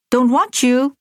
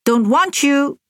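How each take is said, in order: First: "Don't want you" with want stressed, lightly raised; a child's firm refusal, mildly voiced; distinct voice. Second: "Don't want you", want pushed high and louder; a child's raised refusal, lightly voiced; said loudly. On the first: Little sister to her mother, distinct and firm. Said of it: "in a distinct voice". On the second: Little sister repeating to her mother, louder. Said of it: "she repeated loudly". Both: A narrator's reading.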